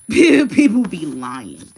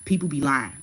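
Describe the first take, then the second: First: Loud, drawn-out laughing repeat; real laugh breaking into loud, slow words; laughing emphasis. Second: Said in the usual way. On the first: Real, not acted. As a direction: burst out laughing and stretch it right out.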